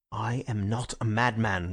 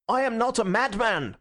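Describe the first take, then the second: First: Frightful sincerity. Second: High, passionate protest; crying out. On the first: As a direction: say it with grave, deadly sincerity. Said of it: "with a frightful sincerity". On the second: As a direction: protest desperately to the whole room. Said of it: "he cried out". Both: A narrator's reading.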